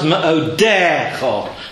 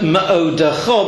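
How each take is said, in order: First: The stress is on the middle syllable. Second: The stress is on the final syllable. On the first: The word is in pausal form at the end of the verse. "Stresses on the dalet" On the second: The word is not at the end of the verse. "stress on the cha"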